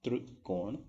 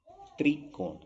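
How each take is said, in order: First: त्रिकोण with a vibrating "trr" start; barely any i in त्रिकोण; wrong तृ pronunciation. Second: त्रिकोण with a clear "tree" start; plain i after tr in त्रिकोण; correct "त्रि" pronunciation. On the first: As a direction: say त्रिकोण as तृकोण. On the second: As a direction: say त्रिकोण higher, as "tri-kon". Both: Shown as a demonstration. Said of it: "ये difference होता है".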